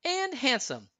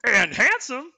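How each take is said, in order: First: High, softer agreeing echo; clean, high heroine voice, no creature sound; Anna agreeing. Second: High, loud put-on reindeer voice; goofy creature voice, pitched way up; Sven. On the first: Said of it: "Anna agreed". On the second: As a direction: chime in as a talking animal. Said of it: "Kristoff said in Sven's voice". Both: A narrator's reading.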